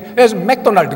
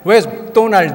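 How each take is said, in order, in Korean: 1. Mac은 완전히 발음하고, Do는 강세를 받지 않아요. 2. Mac은 거의 소리 나지 않고, Do는 강하게 강세를 받아요. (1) "그러면 못 알아들어요 전혀" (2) "처음에 맥은 거의 발음 안 해야 돼요. ... 이렇게 도가 커져야 돼요"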